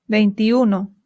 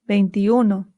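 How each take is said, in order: Both takes have the same delivery.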